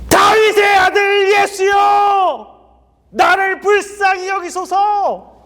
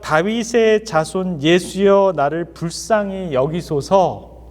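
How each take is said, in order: First: It is cried out loudly, like a scream. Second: It is said quietly and calmly.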